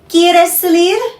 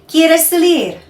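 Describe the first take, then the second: First: It is said as a question. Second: It is said as a statement.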